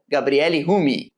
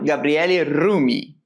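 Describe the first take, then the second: First: The name is said with a Portuguese accent. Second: The name is said with an Italian accent.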